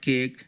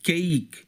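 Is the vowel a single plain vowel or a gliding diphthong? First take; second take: plain vowel; diphthong. First: The vowel is a single plain sound. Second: The vowel glides as a diphthong. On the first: The speaker calls it wrong. "Not కేక్" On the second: The speaker calls it right. "It's a కేక్"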